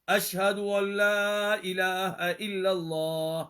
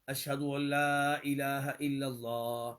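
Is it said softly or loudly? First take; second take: loudly; softly. First: It is said in a raised, louder voice. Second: It is said in a low, soft voice.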